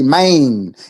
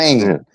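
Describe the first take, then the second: First: The vowel is drawn out, Southern style. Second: The vowel is short and standard. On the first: "the way that we pronounce the A N sound in the South, we say" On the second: "instead of"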